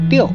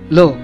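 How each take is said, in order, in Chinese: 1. 这个音节读 liu。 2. 这个音节读 lu。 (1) "普通话中的六" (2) "音同泸"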